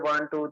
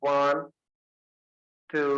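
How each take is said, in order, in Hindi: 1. संख्याएँ तेज़ी से और सपाट आवाज़ में बोली जाती हैं। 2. संख्याएँ खींचकर और उतार-चढ़ाव वाले सुर के साथ बोली जाती हैं। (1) "नॉर्मल हम बोलते हैं" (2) "इंस्ट्रक्शन के लैंग्वेज में ... थोड़ा सा रिदम लेते हैं ना, राइजिंग और फॉलिंग टोन्स"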